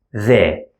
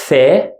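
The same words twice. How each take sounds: First: The with a voiced th as in that. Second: The with an unvoiced th as in thank you; breath only on the th. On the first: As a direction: buzz the th. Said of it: "is like that". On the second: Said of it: "like in thank you". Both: Shown as a demonstration.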